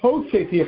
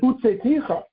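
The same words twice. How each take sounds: First: The verb has the active hifil vowel pattern. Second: The verb has the passive hofal vowel pattern. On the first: God took you out. "we normally say Hashem hutzei ticha... took you out in an active voice, in the typical hifil" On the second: God was taken out with you. "you can read it hutzei ticha... that's the a hofal form, a passive voice"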